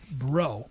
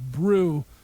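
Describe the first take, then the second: First: The vowel sounds like the one in 'go'. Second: The vowel sounds like the one in 'true'. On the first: The speaker calls it right. "it's pronounced Bro" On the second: The speaker calls it wrong. "I thought their name was Brew"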